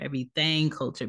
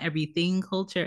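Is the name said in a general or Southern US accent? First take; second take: Southern; general. First: It is said in a Southern American accent. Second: It is said in a general American accent. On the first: The speaker calls it right. "because, you know, this man is from the South" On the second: The speaker calls it wrong. "Not Everything Culture"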